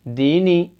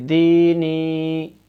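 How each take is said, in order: First: Both vowels are said short. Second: Both vowels are drawn out long. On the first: The speaker calls it wrong. "ऐसे नहीं पढ़ेंगे" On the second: The speaker calls it right. "दोनों को खींच के पढ़ेंगे"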